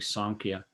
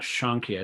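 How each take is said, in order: First: The word begins with an 's' sound. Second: The word begins with a 'sh' sound. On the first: The speaker calls it right. "but it's actually Sankhya" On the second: The speaker calls it wrong. "it's not Shankhya"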